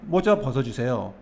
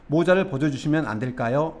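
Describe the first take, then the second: First: Said in the usual way. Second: Polite, tentative question; very polite request. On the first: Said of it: "이 정도 느낌이 되는 겁니다". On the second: Shown as a demonstration. Teacher demonstrating a courteous request to remove a hat, very polite. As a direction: ask deferentially, as a careful favor. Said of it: "이렇게 상당히 공손한 느낌".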